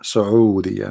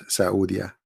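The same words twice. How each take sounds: First: "Saudiya" as su-oo-DEE-ya, with Arabic throat break. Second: "Saudiya" as sa-OO-dia, without the Arabic ayn; anglicised Saudiya. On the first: Speaker correcting the country's name, "Saudiya" in Arabic. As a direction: say "Saudiya" with an Arabic ayn before the oo. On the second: Speaker showing the wrong name, "Saudiya" anglicised. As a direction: say "Saudiya" slowly the English way. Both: Shown as a demonstration. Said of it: "not Saudiya".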